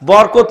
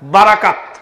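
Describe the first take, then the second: First: It has two short syllables, like borkot. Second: It has three open syllables, like ba-ra-kat. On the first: The speaker calls it wrong. "বরকত নয়" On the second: The speaker calls it right.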